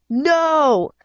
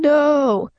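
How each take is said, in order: First: High, drawn-out angry cry; restrained scream, stretched and high; storybook scream. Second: Restrained, high drawn-out cry; a held-back storybook scream; less loud scream. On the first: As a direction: cry out in mounting anger. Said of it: "I screamed". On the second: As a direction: stretch the cry, keeping it contained. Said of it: "Not as loud this time". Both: A narrator's reading.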